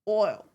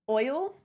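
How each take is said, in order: First: It is said in his childhood regional accent. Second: It is said in his everyday current accent. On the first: This is how the speaker talked growing up. "I've always said like oil" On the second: This is how the speaker talks now. "the oil that I would say normally"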